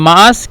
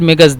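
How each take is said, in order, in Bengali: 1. মাঝখানে একটি গ্লটাল স্টপ আছে। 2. মাঝখানে একটি কঠিন g ধ্বনি আছে। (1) "মাআস শব্দটি ব্যবহার করে যারা কায়রোর অন্তর্ভুক্ত" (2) "মিমের নিচে জের দেয় এবং কফকে গয়ন বলে এটা হলো আহলুস সাইদ"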